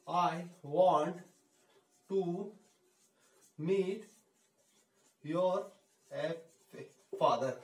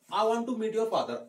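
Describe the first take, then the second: First: Each word spoken apart with long pauses; teacher slowly spacing out words for a learner. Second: Slow, even model sentence; teacher giving a careful model line; slow and clear. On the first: Teacher dictating to students, word by word with pauses. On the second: Teacher showing students the whole sentence, slowly. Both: Shown as a demonstration. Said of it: "want को थोड़ा I want बोलोगे ना".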